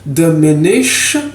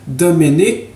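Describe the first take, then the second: First: The word ends in a breathy fricative sound. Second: The word ends in a hard stop sound.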